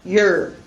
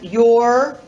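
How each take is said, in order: First: The word is said reduced and unstressed. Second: The word is said full and stressed.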